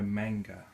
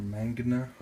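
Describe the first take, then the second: First: "manga" said in two syllables; first pronunciation attempt. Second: "mangana" with an extra syllable; alternative pronunciation attempt. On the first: Fish keeper trying out a species name, "manga" in two syllables. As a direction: say "manga" slowly, ending straight after the g. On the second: Fish keeper unsure of a species name, tentative "mangana". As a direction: say "mangana" with an added "na" at the end. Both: Real, not acted. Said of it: "however you say it".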